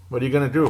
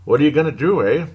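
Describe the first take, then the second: First: Said in the usual way. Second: A light put-on Canadian accent, rising on do. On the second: Sports host shrugging off a loss, in a mock Canadian accent. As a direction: toss in a playful hint of Canadian accent. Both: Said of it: "Pardon my Canadian accent there".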